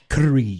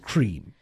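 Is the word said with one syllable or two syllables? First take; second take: two syllables; one syllable. First: The word is said poshly as two syllables. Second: The word is said plainly as one syllable. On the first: "having a hoity-toity like up your nose pronunciation" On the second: "please don't call it cream"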